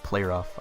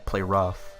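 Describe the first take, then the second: First: The stress falls on the word play. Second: The stress falls on the word rough. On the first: "I don't say, like, Player Off" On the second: "the emphasis is on the R as opposed to the play"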